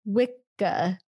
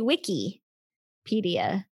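First: The word begins with a "wicca" sound. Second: The word begins with a "wicky" sound. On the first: "Not Wicca" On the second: "You say Wikipedia"

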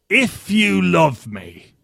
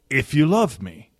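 First: It is said in a put-on pirate voice. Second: It is said in a plain, normal voice.

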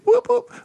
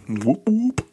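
First: It is said loudly and with energy. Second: It is said low and quietly.

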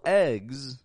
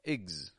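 First: A full vowel, sounding stressed. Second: A quick, quiet reduced vowel. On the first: The speaker calls it wrong. "we don't pronounce a full eggs, otherwise it would sound stressed" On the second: The speaker calls it right. "we give it a quick and quiet igs"

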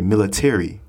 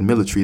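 First: The word is said in an American English accent. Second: The word is said in a British English accent. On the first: "So in America, we say military" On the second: "She said military. That's British English"

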